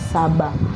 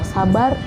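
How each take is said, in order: First: The final r sound is dropped. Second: The final r sound is pronounced.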